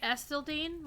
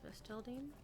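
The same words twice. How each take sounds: First: The stress is on the first syllable. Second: The stress is on the second syllable. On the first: "emphasis on the S" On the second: "I've started to emphasize the second syllable"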